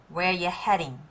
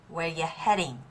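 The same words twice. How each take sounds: The two takes are said the same way.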